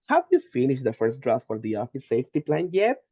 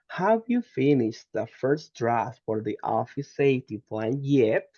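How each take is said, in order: First: It is said smoothly and fluently, without breaks. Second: It is said carefully, with a stressed ending. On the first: "Now let's include fluency" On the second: "That is in emphasis"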